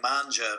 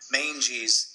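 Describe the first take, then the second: First: The first vowel sounds like 'father', as in manja. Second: The first vowel sounds like 'day', as in mange. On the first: The name sounds like an Italian word. The speaker calls it wrong. "A lot of people thought it was like Manja because you know they're Italian" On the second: The name refers to the mange of a dog. The speaker calls it right. "They actually were referring to like the mange of a dog"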